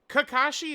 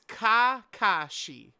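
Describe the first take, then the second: First: The name is said with English-style pronunciation. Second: The name is said with Japanese-style pronunciation. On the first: This is how the English dub says it. "is how they say it in dub" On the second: This is how the original Japanese says it. "it's Kakashi"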